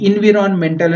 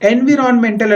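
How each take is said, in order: First: The word begins with an 'ee' vowel. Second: The word begins with an 'eh' vowel. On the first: The speaker calls it right. "ఇన్విరాన్మెంటల్ అని start అవుతుంది" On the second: The speaker calls it wrong. "మనం ఎలా పలుకుతాము, ఎన్విరాన్మెంటల్ అని పలుకుతాం"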